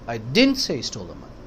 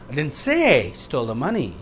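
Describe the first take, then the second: First: The stress is on didn't. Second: The stress is on say.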